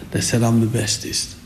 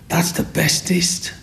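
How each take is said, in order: First: Said in the usual way. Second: Put-on high, slow, hushed child voice; little girl praising. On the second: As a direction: whisper it like a wide-eyed little girl. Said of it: "And she said".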